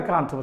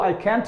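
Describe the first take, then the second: First: The vowel in can't sounds like 'father'. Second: The vowel in can't sounds like 'cat'. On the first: "I কান্ট উচ্চারণ করে" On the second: "I ক্যান্ট উচ্চারণ করে"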